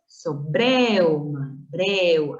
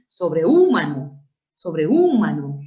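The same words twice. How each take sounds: First: Sobreuma slowly, e and u gliding together in breu; diphthong eu. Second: Sobrehumano with a loud, stretched stressed U; wrong stress on U. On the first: Teacher showing a diphthong forms, eu run together slowly. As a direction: merge the vowels in sobreuma into one syllable, breu. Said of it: "Tú dices". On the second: Teacher showing what you don't say, U punched hard. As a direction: hit the U in sobrehumano as its own syllable. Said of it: "No dices". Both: Shown as a demonstration.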